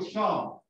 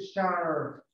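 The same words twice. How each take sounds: First: It is said in British English without the r. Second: It is said in American English with the r.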